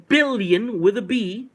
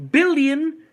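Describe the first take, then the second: First: Billion drawn out slowly, stressed, then with a B spelled out; slow emphatic billion with a B. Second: Billion shouted out higher and louder; punchy loud repeat of billion; emphatic repeat. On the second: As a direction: hammer billion home a second time. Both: Shown as a demonstration.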